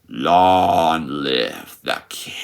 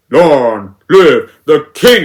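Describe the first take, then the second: First: Low, drawn-out menacing murmur; threatening whisper. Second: Loud, drawn-out mock villain line; mocking imitation. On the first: Retold or imitated. Scar whispering to Mufasa before the drop, threatening and slow. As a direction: lean on each word slowly and softly, a quiet threat. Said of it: "he whispers with a very threatening tone". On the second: Critic mimicking the remake's Scar, loud and slow. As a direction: blurt each word out slowly, no whisper. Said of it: "and he just says".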